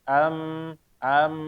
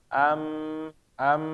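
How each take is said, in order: No difference in how they are said.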